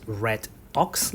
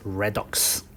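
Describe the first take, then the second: First: "red ox" said as two separate words; split pronunciation. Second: "redox" run together as one word, re-dox; joined pronunciation. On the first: Teacher showing students how not to say it, split "red ox". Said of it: "the way you pronounce it is not". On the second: Teacher showing the proper way, "redox" as one word. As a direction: join it up as "redox", the d starting "dox". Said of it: "you pronounce it as redox". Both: Shown as a demonstration.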